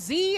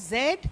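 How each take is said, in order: First: The letter is said the American way, as zee. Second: The letter is said the British way, as zed.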